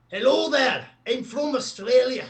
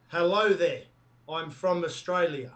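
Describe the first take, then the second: First: Loud, high-pitched, way-off Australian accent; botched Aussie accent. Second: Natural-pitched, nearly right Australian accent; convincing Aussie accent. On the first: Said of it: "Not quite, not quite". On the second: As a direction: do a believable Australian accent in an easy register. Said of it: "That's pretty close". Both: Shown as a demonstration.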